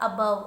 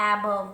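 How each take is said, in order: First: Said in the usual way. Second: "above" with an open "a" as in "apple"; mispronounced first vowel. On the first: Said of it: "this a is a". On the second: Shown as a demonstration. Teacher quoting a child's query about spelling, "above" misread as "AA-bove". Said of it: "why it is not above".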